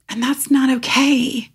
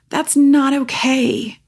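First: Said in the usual way. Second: Slow and higher, leaning on "not"; emphatic repeat. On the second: Real, not acted. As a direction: stretch "not" out, slow and high.

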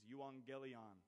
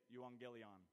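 First: Euangelion said slowly as yoo-ahn-gel-ee-on; Greek pronunciation. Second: Said in the usual way. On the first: Shown as a demonstration. Teaching the church the Greek word, slow careful euangelion. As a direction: spell out euangelion syllable by syllable. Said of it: "translated in the Greek, is". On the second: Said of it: "Everybody say it".

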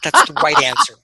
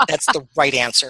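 First: High, loud approving cheer; excited approval. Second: Said in the usual way. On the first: Real, not acted. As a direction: cheer it as the right answer. Approving Airwolf love.

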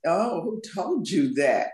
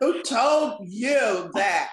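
First: Slow, sassy challenge. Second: Very slow, higher, sassy challenge; hammed-up sass. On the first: Guest playing on her book's title, sassy. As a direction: draw out "who told you that" with a little sass. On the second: Guest hamming up her book's title for laughs, very sassy. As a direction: stretch "told" and "you" right out with big sass. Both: Shown as a demonstration. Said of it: "that little sassy".

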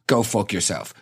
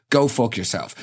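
The two takes are said the same way.

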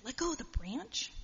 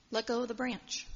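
First: "Let go of the branch?" rising high at the end; incredulous question. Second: Said in the usual way. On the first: Acted. Jack doubts God's instruction, "Let go of the branch?" as a rising incredulous question. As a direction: question "Let go of the branch?" in disbelief, pitch climbing.

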